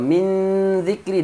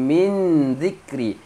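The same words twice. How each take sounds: First: The n is hidden with a nasal hum. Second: The n is pronounced clearly and fully. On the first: The speaker calls it right. "dengung tu dah betul" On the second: The speaker calls it wrong. "kalau jelas kita akan baca"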